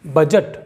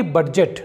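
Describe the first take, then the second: First: बजट said "bajat" with no D; silent D. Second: बजट said "bad-jet" with audible D; D sounded. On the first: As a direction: go straight to the J in बजट. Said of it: "इसे पढ़ेंगे". (बजट में ड silent) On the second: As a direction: break बजट with a D before J. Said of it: "ना कि". (बजट को "बड्जेट" बोलें) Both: Shown as a demonstration.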